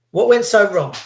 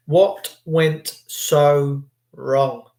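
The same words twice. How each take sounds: First: Higher, louder "went" in an outraged ask; higher, louder outraged question; raised question. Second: Very slow, "what" stressed; drawn-out grave repeat of the question. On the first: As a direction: fling the question up loud. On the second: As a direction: let each word fall slowly. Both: Shown as a demonstration.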